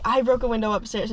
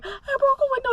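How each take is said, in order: First: Said in the usual way. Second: High, teary voice cracking with sobs; imitating her own sobbing self. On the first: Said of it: "I don't know what you're saying". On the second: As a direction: blurt it out mid-sob. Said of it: "Sobbing, sobbing".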